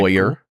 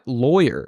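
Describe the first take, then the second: First: The first syllable sounds like 'loy'. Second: The first syllable sounds like 'law'. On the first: "like with an O Y sound" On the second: "Law lawyer"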